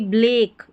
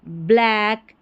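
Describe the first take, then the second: First: The vowel is a closer 'e' as in bed. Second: The vowel is an open 'a' as in cat. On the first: The speaker calls it wrong. "एक sound नहीं" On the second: The speaker calls it right. "ऐक sound इसका निकालना है"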